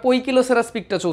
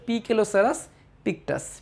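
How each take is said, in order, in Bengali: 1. প্রথম সিলেবলটা 'poy' বলে উচ্চারিত হয়। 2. প্রথম সিলেবলটা 'pee' বলে উচ্চারিত হয়। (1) "এটা অনেকে আবার পইকিলোসেরাস পিকটাস উচ্চারণ করে" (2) "আসলে এটা হচ্ছে"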